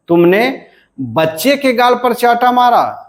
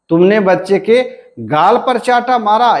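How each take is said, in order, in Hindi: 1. बलाघात बच्चे पर पड़ता है। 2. बलाघात गाल पर पड़ता है। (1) "हम जब बच्चे के पर बलाघात देते हैं" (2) "यानी हमारा बलाघात कहाँ है, गाल पर है।"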